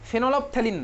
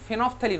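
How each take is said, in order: First: An 'ol' syllable is heard after 'phen'. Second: No 'ol' syllable is heard after 'phen'. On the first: The speaker calls it wrong. "ফেনলফথেলিন নয়" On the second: The speaker calls it right. "এটার pronunciation কিন্তু ফেনফথেলিন হয়"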